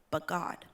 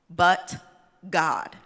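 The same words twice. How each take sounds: First: It is said in a plain speaking voice. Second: It is said in a Southern Baptist preacher style.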